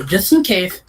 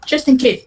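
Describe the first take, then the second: First: Said in the usual way. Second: Just in case, jumped up high and punched; a knowing higher-pitched just in case; higher emphatic repeat. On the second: Shown as a demonstration. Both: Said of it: "repeated with emphasis".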